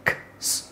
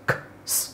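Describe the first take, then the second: No difference in how they are said.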